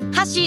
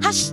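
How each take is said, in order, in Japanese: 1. 母音は完全に有声だ。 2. 母音は無声化している。ほぼささやき声だ。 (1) "箸っていうのがあの有声化" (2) "これこの箸っていうのがこれが無声化で"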